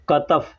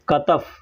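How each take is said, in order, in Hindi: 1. शब्द 'katf' क की आवाज़ से शुरू होता है। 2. शब्द 'katf' क की आवाज़ से शुरू होता है।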